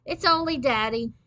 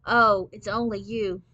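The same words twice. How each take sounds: First: Louder, higher-pitched call; yelling to another room. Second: Loud but flat letdown; flat, disappointed. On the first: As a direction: call out the letdown to the next room. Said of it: "Mike yelled into the dining room". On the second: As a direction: let the hope drop out of it. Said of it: "say in a flat, disappointed voice". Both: A narrator's reading.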